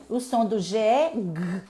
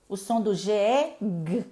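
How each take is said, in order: The two takes are said the same way.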